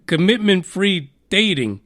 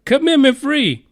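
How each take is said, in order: First: Said in the usual way. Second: Commitment Free said higher and louder in disbelief; incredulous repeat. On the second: Real, not acted. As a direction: punch Commitment as if it's absurd. Repeats app name, then incredulous.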